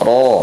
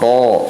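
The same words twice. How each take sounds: First: The r is trilled with about two vibrations. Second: The r is trilled with many long vibrations. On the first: The speaker calls it right. "cukup dua getaran saja" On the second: The speaker calls it wrong. "tidak ro ro"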